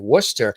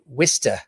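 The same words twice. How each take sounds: First: It is said in a general American accent. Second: It is said in a local Massachusetts accent. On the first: This is how the speaker says it. "which is what I would say" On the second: This is how a local friend says it. "He'd say"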